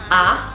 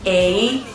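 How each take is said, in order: First: The vowel is an open 'ah' sound. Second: The vowel sounds like the English letter name. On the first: The speaker calls it right. "as if you just got a genius idea and you're like, ah" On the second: The speaker calls it wrong. "It's not A"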